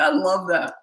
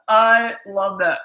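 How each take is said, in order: First: Said in the usual way. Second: I and LOVE stretched out, loud; loud, drawn-out "I love that" with relish; emphatic delight. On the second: Real, not acted. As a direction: really lean on "I love that", slowly. Delighted repeat, heavier second take.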